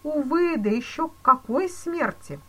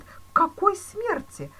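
First: Higher, louder mournful exclamation; exclaimed. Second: Much higher, louder slow anguished moan. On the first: Police chief pitying the banker, exclaiming. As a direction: exclaim it with pity. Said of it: "воскликнул полицмейстер". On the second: Banker moaning at the police chief, anguished. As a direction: wail it in anguish. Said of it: "простонал Зюдерланд". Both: A narrator's reading.

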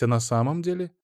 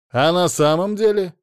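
First: Said in the usual way. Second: «деле» hit louder and higher, mocking; louder mocking repeat. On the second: Ada mocks her ex's question, louder and higher. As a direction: throw «А на самом деле?» back at him, louder.

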